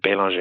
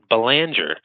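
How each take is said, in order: First: The name is said with a French pronunciation. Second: The name is said with an American pronunciation. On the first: This is how it is said in Canada or France. "when I'm in Canada or France, I do pronounce it Bélanger because it's uh, certainly a French name" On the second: This is how it is said locally in Massachusetts. "I live in Massachusetts, where we pronounce it Belanger"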